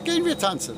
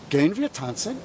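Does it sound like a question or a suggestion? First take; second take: suggestion; question. First: It is said with a suggesting tune. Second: It is said with a questioning tune. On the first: The speaker proposes that they go dancing. "I just change the tone of my voice" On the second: The speaker asks whether they are going dancing. "the wir form in the form of a question"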